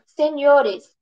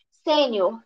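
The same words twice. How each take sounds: First: "senhores" as se-ni-O-res, beat on the "o"; stress shifted to O. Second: "Sênior" with the beat on the first syllable; stress on SÊ. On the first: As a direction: hit the "o" in "senhores". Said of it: "tem também sua sílaba tônica alterada". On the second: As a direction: hit "Sê" in "Sênior". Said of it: "A semelhança de júniores". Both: Shown as a demonstration.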